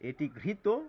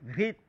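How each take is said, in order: First: The word ends with a final o-like vowel. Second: The word ends on a bare consonant. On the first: The speaker calls it right. "ও এর মতো উচ্চারণকেই অকারান্ত উচ্চারণ বলে" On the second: The speaker calls it wrong. "ভুল করে এগুলিকে ঘৃত"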